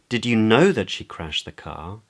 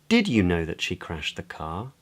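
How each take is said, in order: First: The word "know" carries the main stress. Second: The word "did" carries the main stress. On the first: It asks whether the listener knew for certain. "Questions whether the other person knew for certain" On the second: It asks whether the listener knew of the event at all. "Questions whether the other person knew about the event at all"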